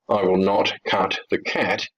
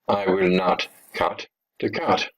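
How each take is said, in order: First: The last word has the vowel of 'cat'. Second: The last word has the vowel of 'cut'.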